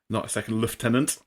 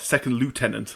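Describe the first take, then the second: First: Lieutenant is said the British way, lef-tenant. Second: Lieutenant is said the American way, loo-tenant.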